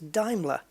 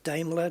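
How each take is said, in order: First: It is said with the native German pronunciation. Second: It is said with the familiar English pronunciation. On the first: This is how it is said where the cars are made. The speaker calls it right. "Apparently it's Daimler" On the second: This is how it has always been said at home. The speaker calls it wrong. "my whole life it was Daimler"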